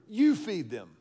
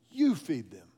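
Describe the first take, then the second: First: "You" landed firmly, a touch louder, falling; stress on YOU. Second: "You" hit hard and falling; stress on YOU. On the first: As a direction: tell your neighbor firmly, leaning on "You". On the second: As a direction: punch "You" as a firm command. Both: Shown as a demonstration. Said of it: "tell your neighbor".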